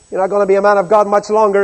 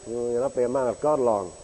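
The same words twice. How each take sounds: First: Louder, fast jeering taunt; loud sarcastic threat. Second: Low sarcastic sneer. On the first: Preacher voicing the captain threatening Elijah, loud jeer. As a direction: spit out the threat mockingly. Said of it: "is the implication". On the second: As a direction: sneer it under your breath. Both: Retold or imitated.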